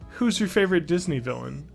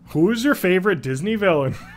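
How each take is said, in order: First: It is spoken in the speaker's ordinary accent. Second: It is spoken in an exaggerated Canadian accent.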